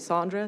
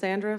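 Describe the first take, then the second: First: The name is said with an English pronunciation. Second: The name is said with a Southern US pronunciation. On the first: This is how the father's family says it. "my dad's side's from England, so it's going to be Sandra" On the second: This is how the mother's family says it. "My mom's side, it's Sandra, because they're from the South"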